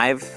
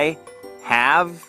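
First: The words are joined into one contracted syllable. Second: Both words are said fully and separately.

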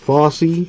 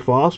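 First: The name ends with an extra ee syllable. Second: The name ends in a single syllable. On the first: "Foss E. That's how you pronounce that" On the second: "The E is silent"

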